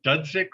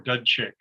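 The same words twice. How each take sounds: First: Dudzik said with a Z sound, "DUD-zik"; first pronunciation option. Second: Dudchik said with a CH sound, "DUD-chick"; alternative pronunciation. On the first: Judge asking counsel how the name is pronounced, Dudzik with a z sound. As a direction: say "Dudzik" with "z" in the middle. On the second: Judge offering counsel a second pronunciation, Dudchik with a ch sound. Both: Shown as a demonstration. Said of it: "is it pronounced".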